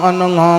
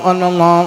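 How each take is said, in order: Both takes have the same delivery.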